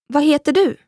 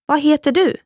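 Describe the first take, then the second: No difference in how they are said.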